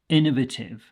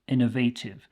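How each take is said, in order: First: The word is said unlike the verb innovate. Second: The word is said like the verb innovate. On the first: This is the speaker's own usual pronunciation. "this is the way that I would pronounce it" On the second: Other people also say it this way. "which makes sense because we do have the verb innovate"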